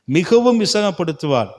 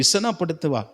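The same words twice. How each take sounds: First: மிகவும் pushed out louder; louder preacher's weight on மிகவும்; stress on மிகவும். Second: Said in the usual way. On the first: Shown as a demonstration. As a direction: hit மிகவும் hard, then fall.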